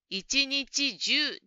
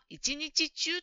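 First: The last syllable starts with a 'j' sound. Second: The last syllable starts with a 'ch' sound. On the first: The speaker calls it right. "中と読みます。" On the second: The speaker calls it wrong. "ジムさんは一日中と言っているように聞こえました。"

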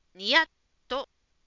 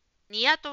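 First: The t sound is held with a short stop. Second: The t sound is short with no held stop. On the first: The speaker calls it right. "小さい「つ」に気をつけて発音しましょう" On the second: The speaker calls it wrong. "ジムさんは「ニヤッと笑う」に聞こえました"

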